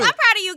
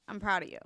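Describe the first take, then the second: First: It is said in a high-pitched voice. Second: It is said in a lower, flat voice.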